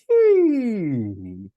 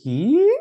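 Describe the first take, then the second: First: The pitch glides downward to a low note. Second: The pitch glides upward to a high note. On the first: "And now glide down like this" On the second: "Glide up on the he, sound like this"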